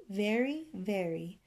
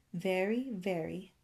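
No difference in how they are said.

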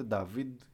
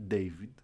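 First: Νταβίντ with an "a" and final "veed"; French-style name pronunciation. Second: Ντέιβιντ with an "ei" in the first syllable; English-style name pronunciation. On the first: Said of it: "έμαθε ότι προφέρεται Νταβίντ και όχι Ντέιβιντ". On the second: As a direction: say Ντέιβιντ as "DAY-vid". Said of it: "και όχι Ντέιβιντ". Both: Shown as a demonstration.

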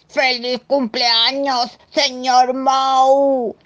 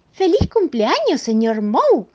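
First: High, loud, long-drawn monster cheer; slow, hooting birthday holler; monster's birthday shout. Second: High, loud, brisker cheer; loud, high birthday greeting; Mrs Moe's birthday cheer. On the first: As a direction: stretch every word, holding the last one. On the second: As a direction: call it out high and merry. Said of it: "dijo la señora Moe". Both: Acted.

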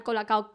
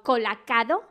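First: Said in the usual way. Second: "colacado" with a D added before the last O; mispronounced Cola Cao. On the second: Retold or imitated. Quoting a reality star's name for Cola Cao, mispronounced "colacado". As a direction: say "colacado", sounding an extra D in the ending. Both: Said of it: "llamar al colacao colacado".

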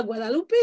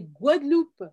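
First: Guadeloupe said Spanish-style as "gwa-da-lou-PÉ"; wrong pronunciation, Guadalupé. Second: Guadeloupe said French-style, "gwad-LOUP"; correct French pronunciation. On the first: Correcting Americans, quoting their wrong "Guadalupé" for Guadeloupe. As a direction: pronounce Guadeloupe with extra syllables, "Guadalupé". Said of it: "c'est pas Guadeloupe". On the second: Correcting Americans, giving the French "gwad-loup" for Guadeloupe. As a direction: pronounce Guadeloupe with a silent final e, "gwad-loup". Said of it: "c'est Guadeloupe". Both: Shown as a demonstration.

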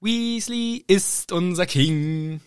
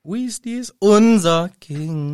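First: "ist" langsam hervorgehoben; Betonung auf ist. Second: "unser" lauter hervorgehoben; Manteuffel: unser betonen; Betonung auf unser. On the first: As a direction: Rufus Beck: ist betonen. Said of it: "Der Betonung auf ist". (Betonung auf „ist“, langsam gesungen) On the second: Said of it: "die Betonung auf unser". (Betonung auf „unser“, langsam) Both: Retold or imitated.

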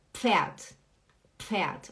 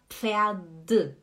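First: Pferd ending in a crisp T; correct Pferd. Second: Pferd with a voiced D at the end; wrong Pferd. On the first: Teacher showing the correct Pferd, ending in T. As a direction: say Pferd with the final d sounded as a T. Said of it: "É como se fosse um T". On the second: Teacher showing the wrong Pferd, ending in a D sound. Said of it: "A gente não fala Pferd". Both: Shown as a demonstration.

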